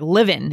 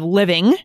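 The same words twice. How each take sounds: First: The final g sound is dropped. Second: The final g sound is pronounced.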